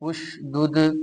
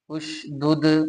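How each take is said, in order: No difference in how they are said.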